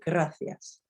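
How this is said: The c is said with a th sound.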